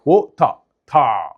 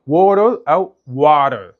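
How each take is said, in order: First: "ووتر، تا" slow, a hard T and open "tah" ending; exaggerated T in "ووتر، تا"; British strong T. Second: "ووتر او واتر" slow, as "worer" or "warer" with final R; drawn-out American "ووتر او واتر"; American flap T. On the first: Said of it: "هيقول التي بقوه ويوقع الار". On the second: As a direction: soften the T and sound the R in "ووتر او واتر". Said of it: "هيخفف التي يخليها فلاب دي". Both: Shown as a demonstration.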